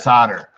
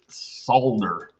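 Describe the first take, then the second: First: It is said the American way. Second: It is said the Canadian way.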